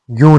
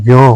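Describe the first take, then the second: First: यूं with a long oo; wrong vowel. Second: यों with an o sound; correct vowel. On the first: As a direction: say यूं as "yoon". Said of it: "नहीं होता है". (यूं में ऊ की ध्वनि) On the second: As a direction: say यों as "yon". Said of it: "होता है". (यों में ओ की ध्वनि) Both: Shown as a demonstration.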